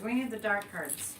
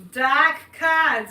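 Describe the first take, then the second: First: Said in the usual way. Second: Boston accent, r dropped in "cards" as "cahds", loud; dropped-R Boston "Dark cards". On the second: Shown as a demonstration. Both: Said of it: "as we say in Boston".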